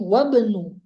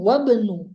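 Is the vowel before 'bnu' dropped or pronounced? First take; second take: dropped; dropped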